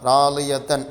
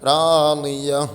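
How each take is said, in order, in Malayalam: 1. ഈ വാക്ക് ത ശബ്ദവും സ്വരവും ചേർന്നാണ് അവസാനിക്കുന്നത്. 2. ഈ വാക്ക് ഉച്ചരിക്കാത്ത ഹ ശബ്ദത്തിലാണ് അവസാനിക്കുന്നത്. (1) "താഇൻ്റെ മഖ്റജിൽ നിന്ന് പറഞ്ഞു" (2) "ഹാ ഇനെ സുക്കൂൻ ചെയ്ത് വഖഫ് ചെയ്യും"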